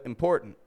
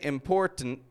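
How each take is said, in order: First: The T is a glottal stop in the middle. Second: The T is fully released in the middle. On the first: "but important" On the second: "most of the time they won't say important"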